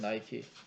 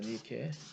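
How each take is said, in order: First: The name is said as nai-kee. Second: The name is said as nee-keh. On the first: This is the English form of the brand. "영어가 그냥 I 발음을 하는 거지" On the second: This is the original Greek form. "그리스 발음은 I를 갖다 E로 발음한다는 거죠"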